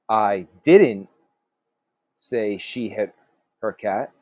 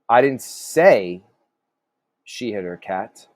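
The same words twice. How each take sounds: First: The stress falls on the word didn't. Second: The stress falls on the word say. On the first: The speaker denies having said it. "So maybe you said something something different" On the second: The speaker implied it without saying it. "So maybe you kind of implied it"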